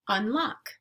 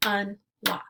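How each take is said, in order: First: Said in the usual way. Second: "Unlock" as two beats with a gap, UN, LOCK; split into syllables. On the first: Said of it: "Let's segment syllables now". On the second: Shown as a demonstration. Teacher clapping out syllables for learners, "Unlock" segmented as un ... lock. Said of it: "we'll clap out the syllables".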